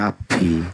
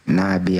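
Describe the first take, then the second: First: The b is held long, heavily accented. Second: The b is short and plainly said. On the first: The speaker calls it wrong. "jangan dimedokin Nabi" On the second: The speaker calls it right. "Nabi aja udah. B-nya cuman satu"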